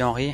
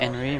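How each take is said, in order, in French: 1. Le nom est prononcé à la française. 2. Le nom est prononcé à l'anglaise. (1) "Moi je dis Henri" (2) "ils disent"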